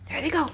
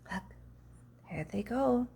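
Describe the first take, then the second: First: Higher, brisk, "go" clipped short; an excited aside as they dash; "go" said quickly on a high note; lively there they go. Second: A soft aside to the listener; hushed there they go. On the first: Monkeys racing off. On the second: Watching the monkeys leave. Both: A narrator's reading.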